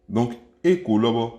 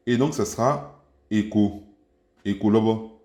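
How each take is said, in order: First: Écho, lobo, with a rising tune on lobo; montée sur lobo. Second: Écho lobo, with the pitch going down on lobo; falling tune on lobo. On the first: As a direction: say lobo with the pitch going up. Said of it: "une intonation qui monte". (intonation montante sur « lobo ») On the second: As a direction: let lobo drop. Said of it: "Elle sera descendante". (intonation descendante sur « lobo ») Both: Shown as a demonstration.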